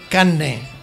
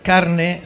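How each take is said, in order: First: The r is replaced by a doubled n. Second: The consonant before the n is an r. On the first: "cuando no en doble N" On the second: "La R se convierte en L"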